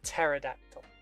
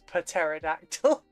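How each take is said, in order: First: The word is said with its usual pronunciation. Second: The word is said with an odd pronunciation. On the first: The speaker calls it right. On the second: The speaker calls it wrong. "which I love mispronouncing as pterodactyl because it upsets people"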